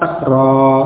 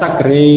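First: The final vowel is an open a. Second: The final vowel is tilted toward e. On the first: The speaker calls it right. "harus tetap fathah sakra" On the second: The speaker calls it wrong. "tidak boleh dibaca sakre"

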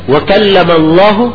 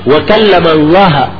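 First: The word Allah ends with a 'u' vowel. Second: The word Allah ends with an 'a' vowel. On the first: God is the one who spoke to Moses. The speaker calls it right. "dibaca Allahu pakai dhamma" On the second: Moses is the one who spoke to God. The speaker calls it wrong. "Mereka pakai fathah"

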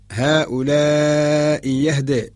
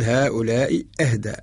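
First: The second word begins with a y sound. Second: The second word begins with a glottal stop. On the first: The hamza is replaced by ya in this reading. "إبدالها بالياء" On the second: This is the original form with the hamza. "الأصل"

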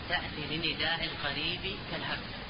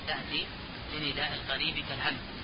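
The two takes are said the same way.

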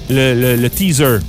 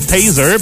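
First: The first vowel sounds like 'ee'. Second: The first vowel sounds like 'ay'. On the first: This is how people commonly say it. The speaker calls it wrong. "comment est-ce qu'on le prononce en français? Le teaser" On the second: This is how it really is. The speaker calls it right. "Mais c'est Taser"

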